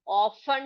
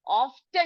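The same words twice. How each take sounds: First: Second often as "off-un", no t; silent t. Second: First often with a sounded t, "off-ten"; wrong pronunciation. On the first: Teacher giving the reading to use, silent t. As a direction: drop the t from often. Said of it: "करके पढ़ेंगे". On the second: Teacher contrasting wrong with right, wrong pronunciation. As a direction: clear t in often. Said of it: "often ना पढ़कर". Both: Shown as a demonstration.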